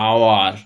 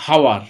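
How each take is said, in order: First: আওয়ার opening straight on a long "aa"; silent H. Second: হাওয়ার with an audible "h" before the vowel; wrongly sounded H. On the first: Teacher answering how we say it, আওয়ার with silent h. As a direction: drop the h and start আওয়ার on the vowel. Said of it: "আমরা উচ্চারণে কি বলি?". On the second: Teacher showing what we don't say, হাওয়ার with h pronounced. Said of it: "আমরা বলি না". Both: Shown as a demonstration.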